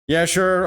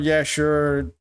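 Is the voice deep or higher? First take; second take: higher; deep. First: It is said in a higher put-on character voice. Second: It is said in a deeper, smooth voice. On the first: "objection voice" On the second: "the original. So what I was doing before"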